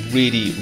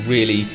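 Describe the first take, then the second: No difference in how they are said.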